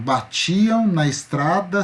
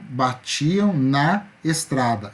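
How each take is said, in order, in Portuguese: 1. As vogais de 'na' e 'estrada' se juntam. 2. As vogais de 'na' e 'estrada' ficam separadas. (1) "quando eu falo na estrada, eu falo junto" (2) "Eu não falo batiam na estrada"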